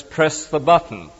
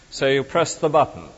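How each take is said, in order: First: Slow, deliberate reading of the sign's words; reading a notice. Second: Said in the usual way. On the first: Retold or imitated. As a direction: spell out "press the button" slowly like an instruction card. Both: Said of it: "he has a notice which says".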